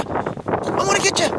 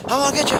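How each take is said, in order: First: High playful squeal. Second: Playful teasing. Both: Acted. Playing chase with dog.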